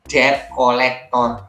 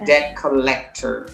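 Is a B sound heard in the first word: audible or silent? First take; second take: audible; silent. First: The B sound in the first word is pronounced. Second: The B sound in the first word is silent. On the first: The speaker calls it wrong. "kata ini sering diucapkan sebagai debt collector" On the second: The speaker calls it right. "Padahal bacanya B-nya itu hilang. Jadi harusnya debt"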